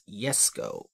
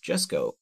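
First: The name begins with a 'y' sound. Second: The name begins with an English 'j' sound. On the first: The speaker calls it right. "the J is basically a Y" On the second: The speaker calls it wrong. "is not pronounced as Jesko"

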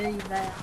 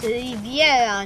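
First: The name is said without the extra i sound. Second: The name is said with an extra i sound. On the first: The speaker calls it wrong. "nie Rivera" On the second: The speaker calls it right. "To jest Riviera"

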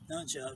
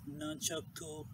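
First: The word ends on the 'chuck' sound. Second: The word ends with a final vowel sound.

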